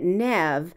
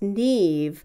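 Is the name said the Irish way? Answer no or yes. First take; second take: no; yes. First: The name is said in a non-Irish way. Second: The name is said in the Irish way. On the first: "Nev Campbell pronounces it Nev" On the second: "which is the Irish pronunciation"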